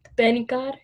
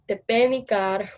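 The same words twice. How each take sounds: First: The unstressed vowels are skipped over and deleted. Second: All the vowels are pronounced fully. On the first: This is the European Portuguese way of saying it. "kind of skipping over those vowels and, you know, deleting them" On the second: This is the Brazilian Portuguese way of saying it. "Brazilian Portuguese pronounces it like I just did"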